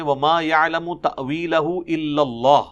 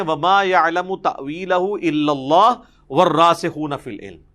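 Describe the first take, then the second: First: Recited, coming to a full stop after إِلَّا اللَّهُ; full stop after Allah. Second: Recited straight through, إِلَّا اللَّهُ running into وَالرَّاسِخُونَ with no stop; the stop after اللَّهُ dropped, read as one unbroken phrase; no pause after Allah. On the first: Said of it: "إِلَّا اللَّهُ کے بعد وقف ہے". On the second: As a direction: carry إِلَّا اللَّهُ on into وَالرَّاسِخُونَ without a break. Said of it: "بیچ میں سے وقف نکال دیتے ہیں". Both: Shown as a demonstration.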